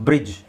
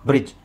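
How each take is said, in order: The two takes are said the same way.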